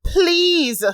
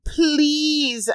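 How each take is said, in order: First: A higher, louder, desperate "please"; desperate begging. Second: A high, pleading "please"; begging. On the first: Narrator begging again, higher and more desperate. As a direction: beg harder, voice rising. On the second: Narrator begging her attacker to stop, pleading. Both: A narrator's reading. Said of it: "I begged".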